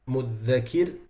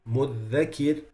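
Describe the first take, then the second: No difference in how they are said.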